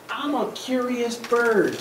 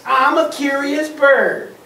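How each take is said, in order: First: Slow, gently reasonable little duck; innocent duck. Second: Higher, slow mocking imitation; mocking pigeon. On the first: Acted. Duck explains himself to the pigeon, innocent. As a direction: explain it mildly, taking your time. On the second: Upset pigeon mimicking the duck, mocking. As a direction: throw the words back in a mock singsong. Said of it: "He's really upset".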